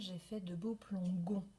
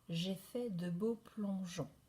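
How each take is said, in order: First: The g in the last word sounds hard, like 'go'. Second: The g in the last word sounds soft, like 'zh'. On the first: "Sinon j'aurais le son G. Ça ne fonctionne pas" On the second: "pour avoir le son je"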